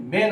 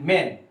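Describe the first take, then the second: First: मैन said as "main", with ay; "मैन" with a long e; expected AY vowel. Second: मैन with an open ऐ vowel; "मैन" with open ae, not ay; actual open A. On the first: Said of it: "मैन होना चाहिए था". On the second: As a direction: say मैन as English "man". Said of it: "पर ये हो रहा है". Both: Shown as a demonstration.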